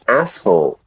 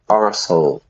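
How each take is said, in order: First: The word is said with the American form, ass. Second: The word is said with the British form, arse. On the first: "Americans would say he's an asshole" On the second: "I would say he's an arsehole"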